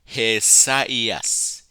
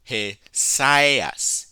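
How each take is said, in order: First: The two vowels are said as separate syllables. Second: The two vowels merge into one syllable. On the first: The speaker calls it right. "Because of the diaeresis, you pronounce" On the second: The speaker calls it wrong. "If this were a diphthong, it would be"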